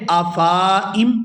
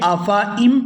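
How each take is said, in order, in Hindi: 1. 'f' के बाद वाला स्वर खींचकर लंबा किया गया है। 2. 'f' के बाद वाला स्वर छोटा है। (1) "यहाँ अगर अलिफ मद्दा की वैल्यू होती तो फिर हम इसको पढ़ते" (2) "अब हमने यहाँ फ़ा को खींच के अदा नहीं करना, बल्कि इसको अदा करेंगे"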